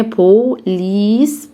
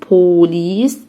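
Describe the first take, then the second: First: "بوليس" slowly as po, pause, lees; split syllables. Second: Said in the usual way. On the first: Shown as a demonstration. Teacher says divide it with me, "بوليس" syllable by syllable. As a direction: draw out each half of "بوليس" separately. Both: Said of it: "قسم معايا".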